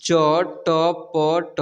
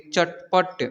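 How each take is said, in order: First: चटपट very slow, each letter separate; चटपट broken into drawn-out letters; spelled out letter by letter. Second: Said in the usual way. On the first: Shown as a demonstration. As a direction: sound out चटपट one long letter at a time. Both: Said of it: "इसे पढ़ेंगे".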